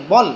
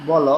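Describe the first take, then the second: First: বল closed on the l, "bol"; silent final vowel. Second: বল said in two syllables, "bo-lo"; open final vowel. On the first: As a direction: end বল on a bare ল, one syllable. (বল, হসন্ত দিয়ে "বল্") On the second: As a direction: sound the vowel after ল in বল. (বল, শেষে স্বরসহ "বলো") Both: Shown as a demonstration. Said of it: "লর নিচে হসন্ত দিলে".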